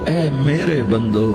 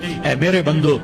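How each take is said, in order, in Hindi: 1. यह गर्म, कोमल लहजे में कहा गया है। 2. यह सपाट, सादे लहजे में कहा गया है।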